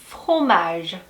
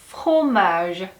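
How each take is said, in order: No difference in how they are said.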